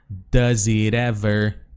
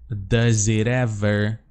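The two takes are said the same way.

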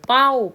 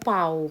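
First: The syllable is said on a falling tone. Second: The syllable is said on a rising tone. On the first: "ใส่ไม่โทค่ะ" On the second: "ใส่ไม้จัตวาค่ะ"

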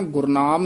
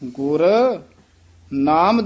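First: The two words are run together as one. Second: The two words are kept clearly separate. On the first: It sounds like a single name. The speaker calls it wrong. "Gurnam ਨਹੀਂ ਕਹਿ ਦੇਣਾ" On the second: The guru gave the name. The speaker calls it right. "ਧਿਆਨ ਨਾਲ ਉਚਾਰਨ ਕਰਨਾ ਹੈ"

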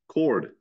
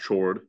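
First: The word begins with a k sound. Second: The word begins with a ch sound. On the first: The speaker calls it right. "That's you pronounce that word chord" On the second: The speaker calls it wrong. "not chord"

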